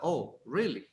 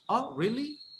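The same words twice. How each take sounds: First: It is said flatly, without surprise. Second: It is said with a surprised tone. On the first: The speaker calls it wrong. "It's not" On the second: The speaker calls it right. "It's like you, you, you are like surprised about it"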